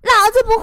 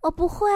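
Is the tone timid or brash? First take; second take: brash; timid. First: It is shouted brashly and arrogantly. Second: It is said timidly and weakly.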